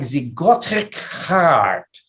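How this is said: It is said in a thick French accent. "Actually, it sounded more like"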